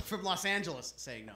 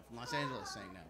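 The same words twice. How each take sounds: First: Said in the usual way. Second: Low, soft repeat of the announcement; hushed repeat. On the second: Acted. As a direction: drop low and quiet before the act. Hushed repeat before the impression.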